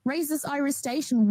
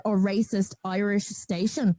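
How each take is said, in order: First: Outraged disbelief, pitched up; incredulous echo. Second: Said in the usual way. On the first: Real, not acted. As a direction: repeat it back much higher, stunned. Echoes the phrase in disbelief.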